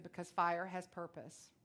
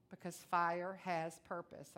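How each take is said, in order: First: Voice of God. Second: Because fire has purpose, slow with weight on fire; slow emphasis. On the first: Retold or imitated. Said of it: "he said". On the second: Shown as a demonstration. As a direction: drive home fire has purpose slowly.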